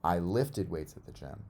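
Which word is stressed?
lifted. The stress falls on the word lifted. It tells what was done with the weights. "I didn't throw them or do anything else with them. I lifted them"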